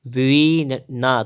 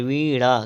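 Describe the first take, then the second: First: वीणा drawn out with a dental n; slow वीणा on plain n; wrong pronunciation. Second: वीणा with retroflex ṇ; correct pronunciation. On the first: Teacher reading the error, slow वीणा with dental n. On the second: Teacher correcting, वीणा with retroflex ṇ. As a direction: flap the tongue in वीणा. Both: Shown as a demonstration. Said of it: "तो वीणा नहीं".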